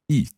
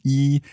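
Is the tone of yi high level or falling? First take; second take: falling; high level. First: The syllable is said with a falling tone. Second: The syllable is said with a high level tone. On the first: The word is combined with another number. "so it becomes a fourth tone" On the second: The word stands on its own. "one, when it's a first tone on its own, would be e"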